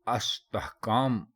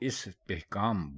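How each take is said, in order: First: The word begins with an 'a' vowel. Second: The word begins with an 'i' vowel. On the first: The speaker calls it wrong. "इसको अस्तहकाम कई लोग बोल जाते हैं, जो कि गलत है" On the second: The speaker calls it right. "इसको हमेशा इस्तिहकाम बोलना चाहिए"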